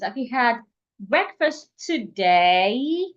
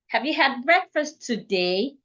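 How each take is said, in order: First: The final vowel is held long. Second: The final vowel is short and clipped. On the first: The speaker calls it right. "because she paid attention to the length of the last vowel in that sentence" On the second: The speaker calls it wrong. "The sentence will not come out well"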